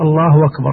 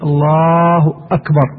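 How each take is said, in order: First: The vowel stretches into a w before akbar. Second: A clear glottal stop starts akbar. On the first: It sounds like a second name is joined to God's name. The speaker calls it wrong. "هذه الضمة تشبع كثيرا جدا ونغلو فيها غلو حتى نحولها إلى ... تصير واو" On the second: God alone is described as the greatest. The speaker calls it right. "لا بد من إظهار الهمز وقطعها"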